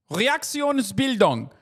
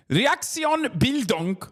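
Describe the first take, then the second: First: Reaktionsbildung said slowly, syllable by syllable, in German; careful German pronunciation. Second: Said in the usual way. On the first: Shown as a demonstration. Streamer teaching chat the German term, slow careful Reaktionsbildung. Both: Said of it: "in German is known as".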